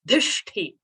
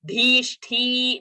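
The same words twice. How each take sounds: First: The vowels are kept short. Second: A vowel is held longer. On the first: The speaker calls it right. "all are rasva sounds" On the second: The speaker calls it wrong. "we cannot hold it longer and make it a dirgha sound"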